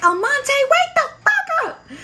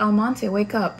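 First: Furious shout. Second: Gentle wake-up call in a mild imitation; super nicely. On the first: Retold or imitated. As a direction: scream the recruit awake. Chief yelling at sleeping recruit. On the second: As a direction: chief being sweet at first. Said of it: "super nicely".

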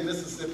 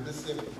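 First: "Mississippi" with all four syllables, Mis-sis-sip-pi; standard Mississippi. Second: "Mississippi" squeezed to three syllables, Miss-sippi; local Mississippi. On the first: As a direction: say "Mississippi" the textbook way, every syllable there. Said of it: "you don't say Mississippi". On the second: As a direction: swallow the middle of "Mississippi" like a local. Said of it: "it's Mississippi". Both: Shown as a demonstration.

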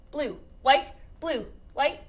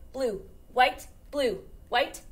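The two takes are said the same way.

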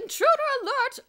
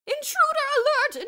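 First: Very high, very loud PA call, rising end; repeated loudspeaker alarm. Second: Very high, very loud PA announcement; loudspeaker alarm. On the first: Miss Scrimmage repeats the alarm over the loudspeaker. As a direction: blare it again over the speakers. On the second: Miss Scrimmage alarms the school over the loudspeaker. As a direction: blare it over the speakers. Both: A narrator's reading. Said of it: "voice came over the public address system".

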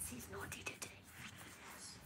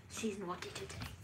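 First: Unvoiced, soft whisper; hushed whispered aside. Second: Said in the usual way. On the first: Real, not acted. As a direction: breathe it like a secret. Whispered repeat.

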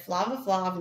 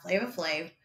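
First: "Flava Flav" with flat ah vowels, FLAH-va FLAHV; mispronounced name. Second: "Flava Flav" with long ay vowels, FLAY-va FLAYV; correct name. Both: Shown as a demonstration.

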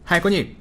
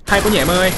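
First: Said in the usual way. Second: "Hay quá nhỉ" thrown out louder and higher; mock the enemy with a louder jeer; loud mocking taunt. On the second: Real, not acted. Streamer mocking an enemy player he just beat, loud jeer.

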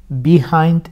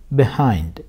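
First: Behind with bi and a long slow start, marked wrong; slow demo of the wrong Behind; wrong version. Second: Behind with a short be, stress on hind; the right Behind, said quickly; correct version. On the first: Teacher shows students the wrong Behind, slowly. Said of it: "Behind değil". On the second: Teacher gives students the right Behind after the wrong one. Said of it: "Behind değil, behind diye okunuyor". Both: Shown as a demonstration.

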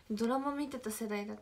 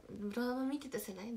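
First: Said in the usual way. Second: ドラマ見てた世代？ with a rising question tune. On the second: Shown as a demonstration. Checking with the others, ドラマ見てた世代？ rising as a question. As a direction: ask ドラマ見てた世代？ rising at the end.

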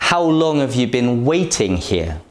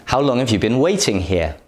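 First: "How", "long" and "waiting" clearly stressed, "have you" weak; a clear stress demo of how, long and waiting. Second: Quick, connected natural speech; fast everyday question, words run together; fast natural example. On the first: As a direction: lean on "How", "long" and "waiting", let the rest fall away. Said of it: "The words how, long, and waiting are stressed". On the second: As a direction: rattle the question off at natural speed. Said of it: "For example". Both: Shown as a demonstration.

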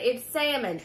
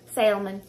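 First: "salmon" said "sammon", silent L; "salmon" with no L sound, "SAM-un"; salmon without the L. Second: "Salmon" said "SAL-mon", L clearly voiced; "Salmon" with the L pronounced, "sal-mun". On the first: Vlogger showing viewers the right way, "salmon" as "sammon". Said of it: "I know how to pronounce salmon". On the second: Vlogger demonstrating her habit, "Salmon" said with the L. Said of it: "it comes out of salmon". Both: Shown as a demonstration.

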